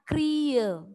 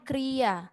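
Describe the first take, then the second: First: The word ends in an e sound. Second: The word ends in an a sound. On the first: This is how the word is read aloud. "tetapi dibacanya kriye" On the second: This is how the word is written. "tulisannya kriya"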